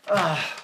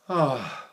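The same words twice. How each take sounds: First: The sigh sounds angry. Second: The sigh sounds exhausted.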